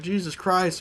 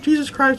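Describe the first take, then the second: First: It is said quietly, without screaming. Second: It is screamed loudly in alarm. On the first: Mild disgust, not real fear. "I didn't scream at all" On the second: Real fright. "I would be screaming"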